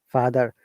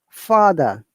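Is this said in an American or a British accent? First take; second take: American; British. First: American accent, with an R sound at the end. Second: British accent, with no R sound at the end.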